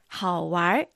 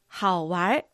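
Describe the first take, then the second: First: The word ends with an r-coloured sound. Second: The same.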